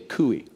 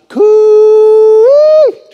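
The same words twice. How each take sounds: First: It is said plainly at normal volume. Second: It is called out loudly like a farmer.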